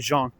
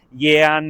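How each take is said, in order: First: The name is said with the French sound. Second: The name is said without the French sound. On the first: The speaker calls it right. "la pronuncia corretta in francese di quel nome è Jean" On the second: The speaker calls it wrong. "mi è capitato di sentire anche delle volte Jean o Jan, così"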